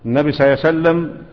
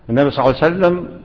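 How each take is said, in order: First: The words are rushed and swallowed together. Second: Every word is said fully and clearly. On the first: The speaker calls it wrong. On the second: The speaker calls it right.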